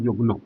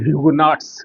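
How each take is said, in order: First: It starts with 'yu' and ends in a nasal vowel. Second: It starts with 'hyu' and ends in 'ts'. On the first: This is the original French pronunciation. The speaker calls it right. "ठीक-ठाक उसका उच्चारण हुआ युगनों" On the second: This is the form used in common textbooks. The speaker calls it wrong. "सामान्य पाठ्य पुस्तकों में ह्यूगुनॉट्स करके अ, ज़िक्र किया जाता है"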